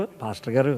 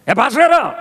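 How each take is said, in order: First: Said in the usual way. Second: "ఏ pastor గారు" called higher and sharp with irritation; irritated call to the pastor, higher and sharp; annoyed call. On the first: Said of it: "ఇది రెండో పిలుపు". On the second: Shown as a demonstration. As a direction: snap the call at him. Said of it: "ఇదో పిలుపు".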